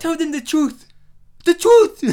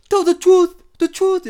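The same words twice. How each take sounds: First: Imitating Will Smith's African accent, loud and high. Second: Loud high mock African accent, intense. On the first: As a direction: intense mock African accent. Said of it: "like, an African accent". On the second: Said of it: "even when you're trying to be intense".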